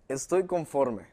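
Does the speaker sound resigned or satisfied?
satisfied. The phrase sounds content and satisfied. The speaker is happy with what they have. "Uno, de que estoy satisfecho con lo que tengo"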